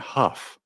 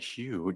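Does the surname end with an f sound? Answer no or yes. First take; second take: yes; no. First: The surname ends in an f sound, like huff. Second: The surname ends in a vowel, like hew. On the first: The speaker calls it right. "her last name is pronounced Huff" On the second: The speaker calls it wrong. "maybe I'm going to keep saying Hugh just because I think it's funny"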